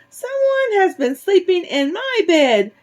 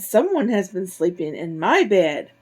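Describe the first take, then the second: First: It is said in a tiny, high, squeaky voice. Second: It is said in a medium-sized, middle voice. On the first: "Baby Bear squeaked in his tiny little voice" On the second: "Mama Bear exclaimed in her medium-sized voice"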